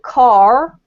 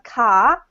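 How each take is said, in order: First: It is said in a North American accent. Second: It is said in an Australian accent.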